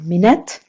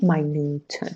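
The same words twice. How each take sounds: First: It is said with the noun pronunciation. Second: It is said with the adjective pronunciation. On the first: A period of sixty seconds. "as a noun minute" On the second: Very small. "as an adjective minute"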